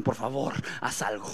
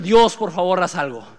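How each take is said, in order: First: Softer, lower "Por favor, haz algo" trailing off; quiet plea. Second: Louder "Dios, por favor" pressed hard; urgent plea. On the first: Disciples dropping their oars, softly begging Jesus. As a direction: beg softly, almost giving up. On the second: Preacher urging listeners to cry out to God, loud. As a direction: push the plea out with force. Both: Retold or imitated.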